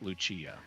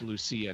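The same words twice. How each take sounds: First: The middle consonant sounds like ch. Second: The middle consonant sounds like s. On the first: The speaker calls it wrong. "not a C H" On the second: The speaker calls it right. "the C is pronounced as an S"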